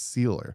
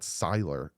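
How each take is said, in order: First: The first syllable sounds like 'see'. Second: The first syllable sounds like 'sigh'. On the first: The speaker calls it right. "it's Sealer" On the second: The speaker calls it wrong. "It's not Siler"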